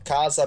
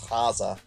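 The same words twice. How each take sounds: First: The word begins with a hard k sound. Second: The word begins with a breathy h sound.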